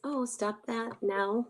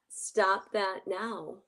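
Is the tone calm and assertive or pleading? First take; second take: pleading; calm, assertive. First: It is said without calm assertiveness. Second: It is said calmly and assertively.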